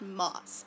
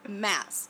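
First: The vowel sounds like the o in cot. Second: The vowel sounds like the a in cat. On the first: The speaker calls it wrong. "not Moss" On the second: The speaker calls it right. "It's Mass"

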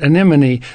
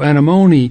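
First: The stress falls on the second syllable. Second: The stress falls on the third syllable. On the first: "But not" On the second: "the accent is on the M-O"

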